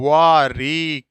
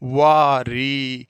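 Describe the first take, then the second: First: The h sound in the first word is pronounced. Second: The h sound in the first word is silent. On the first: "वो वाह होता है" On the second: "इस है को silent करते हुए बोल रहा हूँ"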